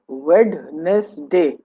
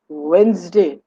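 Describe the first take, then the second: First: The D sound is pronounced. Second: The D sound is silent. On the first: The speaker calls it wrong. "as the spelling goes" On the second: The speaker calls it right. "The D is silent"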